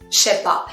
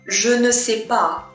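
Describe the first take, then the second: First: The 'ne' is dropped and the words run together. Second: Every word is said fully, including 'ne'. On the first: "we're going to contract" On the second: "when you want to say"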